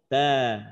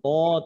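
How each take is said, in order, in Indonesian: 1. Bunyi t-nya ringan, dengan vokal yang lebih jelas. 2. Bunyi t-nya berat, dengan vokal yang lebih gelap. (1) "tapi ta. Ta tipis jangan sampai jadi tebal" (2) "bukan to"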